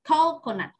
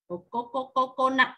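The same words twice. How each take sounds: First: The stress is on the first syllable. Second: The stress is not on the first syllable. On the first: The speaker calls it right. "trọng âm nhất, mình đọc mạnh ở chữ cái đầu tiên" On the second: The speaker calls it wrong. "Vừa rồi [name] đọc là coconut"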